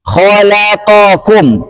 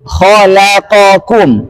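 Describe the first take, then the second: Both takes have the same delivery.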